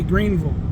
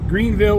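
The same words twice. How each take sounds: First: The last syllable is reduced to 'vul'. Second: The last syllable is said as a full 'vill'.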